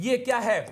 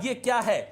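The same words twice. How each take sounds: No difference in how they are said.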